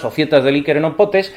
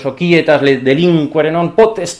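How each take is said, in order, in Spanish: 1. Usa una pronunciación del latín al estilo español. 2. Usa una pronunciación clásica latina restaurada. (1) "pues la pronunciamos a la nuestra" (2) "si fuera del siglo tercero tendríamos que haber dicho"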